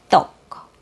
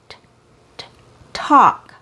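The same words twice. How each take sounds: First: "tok" with Cebuano T, tongue tip between teeth; Cebuano accent. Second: Popped T, then "talk" with a released T; true English T. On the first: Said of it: "my native accent". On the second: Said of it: "That's the true T sound in English". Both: Shown as a demonstration.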